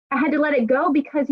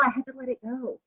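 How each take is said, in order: First: Said in the usual way. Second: Much softer, almost to herself; soft letting go. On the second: Real, not acted. Telling the group about the Jenny situation, hushed. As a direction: let it slip out quietly. Repeats the phrase, first softly.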